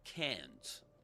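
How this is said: It is said in an American accent. "In American English, can't"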